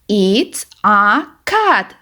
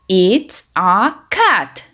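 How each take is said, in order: Both takes have the same delivery.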